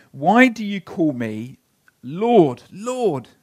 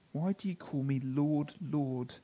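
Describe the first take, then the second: First: Louder, pleading Lord, Lord; forceful Jesus quote. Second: Softer, inward Why do you call me Lord; quiet repeat. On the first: Jesus challenging the crowd, loud and pleading. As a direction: press the question hard. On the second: Preacher repeating Jesus' question to the congregation, quietly. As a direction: hush it, let it sink in. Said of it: "Jesus' target here isn't so much". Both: Acted.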